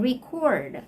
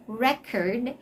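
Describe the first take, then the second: First: "record" stressed on the second syllable, ri-KORD; "record" as the verb. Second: "record" stressed on the first syllable, REK-erd; "record" as the noun, short e. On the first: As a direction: hit CORD in "record". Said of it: "that's already the verb form". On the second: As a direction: hit REC in "record". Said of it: "Record is actually a noun". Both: Shown as a demonstration.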